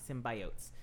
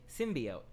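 First: The stress falls on the 'bi' syllable. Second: The stress does not fall on 'bi'. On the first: "she like put emphasis on the I" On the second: "re-recorded her voice or a sound alike to make it symbiote"

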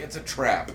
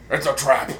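First: It is said in the speaker's ordinary voice. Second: It is said in a put-on character voice. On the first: The speaker calls it wrong. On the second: The speaker calls it right.

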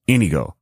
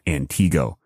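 First: The stress falls on the first syllable. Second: The stress falls on the second syllable. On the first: The speaker calls it right. "it's Antigo" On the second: The speaker calls it wrong. "it's not Antigo"

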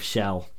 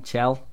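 First: The name begins with a soft 'sh' sound. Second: The name begins with a 'ch' sound. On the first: The speaker calls it wrong. "You know you're pronouncing that wrong" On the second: The speaker calls it right. "That's it. It's but CH"

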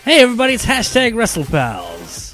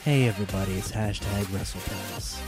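First: It is said with loud, high energy. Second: It is said calmly, with low energy.

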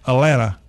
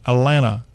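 First: The middle T sound is dropped. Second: The middle T sound is dropped.

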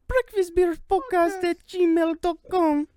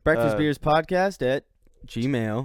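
First: It is said in a Toad-like cartoon voice. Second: It is said in his normal voice.

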